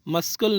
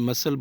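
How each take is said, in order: First: A k sound is said before the l. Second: No k sound is said before the l. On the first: The speaker calls it wrong. "इसको मस्कल नहीं बोलना है" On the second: The speaker calls it right. "सी को pronounce नहीं करना है बल्कि मसल बोलना है"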